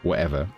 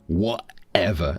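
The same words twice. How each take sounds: First: A soft London glottal stop replaces the t. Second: A harsh, deliberate American glottal stop replaces the t. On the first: The speaker calls it right. "It's a very soft glottal stop" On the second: The speaker calls it wrong. "much, much more deliberate"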